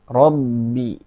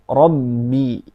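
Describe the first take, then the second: Both takes have the same delivery.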